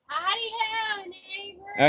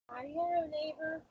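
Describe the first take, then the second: First: It is said loudly. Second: It is said quietly.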